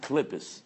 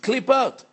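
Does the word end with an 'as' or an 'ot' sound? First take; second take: as; ot. First: The word ends with an 'as' sound. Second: The word ends with an 'ot' sound. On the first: It refers to spiritual husks. The speaker calls it right. "When you want to speak about the klippas, you can't say klippot" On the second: It refers to fruit peels. The speaker calls it wrong. "Oranges, lemons have Klippot"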